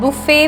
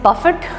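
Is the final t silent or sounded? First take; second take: silent; sounded. First: The word ends in a vowel, t silent. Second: The word ends with a clear t sound. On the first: "इसको हम बुफे बोलते हैं" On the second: "the spelling is बफेट"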